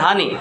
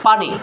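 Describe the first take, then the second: First: The word begins with a soft 'h' sound. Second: The word begins with a clear 'p' sound. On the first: "পানিকে বলতো হানি" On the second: "পানি উচ্চারণ করতে কষ্ট হয়"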